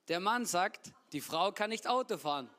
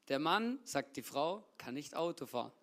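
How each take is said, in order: First: It pauses only after sagt. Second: It pauses only after sagt.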